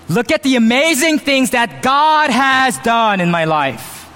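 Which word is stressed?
God. The stress falls on the word God. The credit goes to God. The speaker calls it right. "There's a difference between saying"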